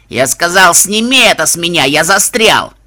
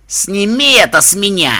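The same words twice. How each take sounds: First: Loud furious yell, stuck; angry yell. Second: Loud, high angry growl; muffled growl. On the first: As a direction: bellow in frustration. Judge stuck, yelling angrily. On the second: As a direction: growl it out from under the bin. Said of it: "глухо прорычал Рок". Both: Acted.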